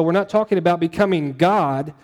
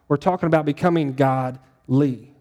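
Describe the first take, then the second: First: "God" stressed as the word to rule out. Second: "godly" split, with its ending "ly" set apart; stress on godly. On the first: Preacher ruling out a misunderstanding, stress on "God". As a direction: land firmly on "God" as one whole word. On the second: Preacher correcting God to godly, "ly" set apart. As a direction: pull "godly" apart so the "ly" stands out. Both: Shown as a demonstration.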